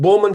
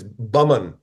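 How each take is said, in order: First: The first syllable sounds like 'bow'. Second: The first syllable sounds like 'bum'. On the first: This is the common but incorrect pronunciation. The speaker calls it wrong. "Completely incorrect, but it sounds perfect" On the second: This is the family's own pronunciation. The speaker calls it right. "It's actually uh, blame my grandfather, but it's Bumman"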